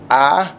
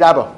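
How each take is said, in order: First: The word is drawn out slowly. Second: The word is said quickly.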